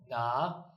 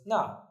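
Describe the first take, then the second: First: The syllable is said with the third tone. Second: The syllable is said without the third tone. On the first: It is part of the word for where. "third tone" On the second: It means there. "It was na, meaning there"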